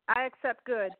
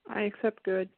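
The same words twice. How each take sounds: First: It is said with more enthusiasm. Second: It is said with little enthusiasm.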